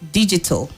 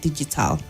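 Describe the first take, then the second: First: The final syllable has a weak, reduced vowel. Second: The final syllable has a full, strong vowel. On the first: The speaker calls it right. "It's another example" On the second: The speaker calls it wrong. "not digital"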